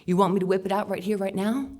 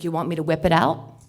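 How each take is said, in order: First: Mock creep, rushed and pushy; hammed-up sleazy stranger at speed; fast creepy repeat. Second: A touch of a sleazy stranger, louder; lightly voiced creep repeating the come-on; creepy leering offer. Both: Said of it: "I could say it again".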